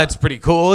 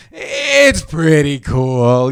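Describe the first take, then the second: First: Said in the usual way. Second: Very slow, drawn-out mimicry; mock reluctant admission. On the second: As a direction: drag it out like a reluctant concession. Mimicking media slowly coming round.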